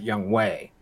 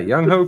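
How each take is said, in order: First: The second syllable is said as 'way'. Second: The second syllable is said as 'ho'.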